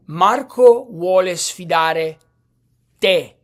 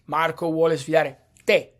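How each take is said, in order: First: Slow and loud, with a big hit on "te"; pause, then punch "te" hard; exaggerated emphasis. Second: Milder stress, "te" set apart at the end; brief pause before a stressed "te"; emphasis on te. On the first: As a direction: overdo the stress on final "te", louder and drawn out. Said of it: "I'm exaggerating". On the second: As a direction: say it at normal volume, singling out "te". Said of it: "the emphasis". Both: Shown as a demonstration.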